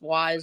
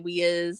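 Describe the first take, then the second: First: The name is said as one syllable. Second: The name is said as two syllables. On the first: This is how the company's commercials say it. "it's pronounced wise on their commercials" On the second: This is how locals sometimes say it. "sometimes we say we is"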